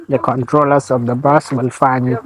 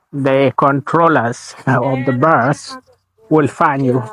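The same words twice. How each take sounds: First: Said in the usual way. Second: Slowed right down, each word spaced out; slow and deliberate. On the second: Shown as a demonstration. Warning viewers about bus fines, slow and deliberate. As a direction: spell out the warning slowly so it sinks in.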